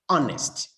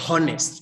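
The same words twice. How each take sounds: First: The word begins directly with a vowel sound. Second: The word begins with a breathy h sound. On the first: The speaker calls it right. "but we say honest. It is a vowel sound" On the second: The speaker calls it wrong. "We don't say honest"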